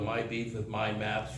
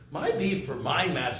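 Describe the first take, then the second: First: It is said flat and monotone. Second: It is said lively and expressive. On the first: The speaker is reading instead of looking at people. The speaker calls it wrong. "You talk like this" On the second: The speaker is looking at the listeners. The speaker calls it right. "you automatically get expressive when you're looking at people"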